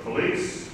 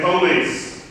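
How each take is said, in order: First: Said in the usual way. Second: Police with the first syllable stressed, "PO-lice"; police said the country way, PO-lice; dialect pronunciation. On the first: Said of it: "but police". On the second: Shown as a demonstration. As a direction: hit the front of police: "POH-leese". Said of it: "I didn't say police".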